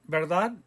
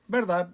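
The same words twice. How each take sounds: First: The pitch rises at the end. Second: The pitch falls at the end. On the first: It asks whether something is right. "You can make it sound like a question" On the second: It states that something is right. "You can make it as a statement"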